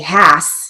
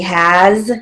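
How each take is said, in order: First: The word ends with a hissing s sound. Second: The word ends with a buzzing z sound. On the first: The speaker calls it wrong. "We don't say has" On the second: The speaker calls it right. "that's a final Z sound"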